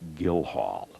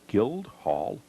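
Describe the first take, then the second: First: The d sound in the middle is silent. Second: The d sound in the middle is pronounced. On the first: The speaker calls it right. "the D is silent" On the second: The speaker calls it wrong. "I mispronounced the name"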